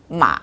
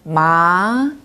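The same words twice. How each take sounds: First: The pitch dips down, then rises slightly. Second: The pitch rises smoothly from mid to high. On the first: It means horse. "내려갔다가 위로 조금 올라가는 음" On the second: It means hemp fabric. "부드럽게 한 미에서 솔까지 올라가는 음"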